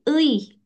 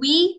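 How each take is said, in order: First: It is said as u sliding into i. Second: It is said as one gliding syllable, wi. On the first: The speaker calls it right. "tapi ui" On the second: The speaker calls it wrong.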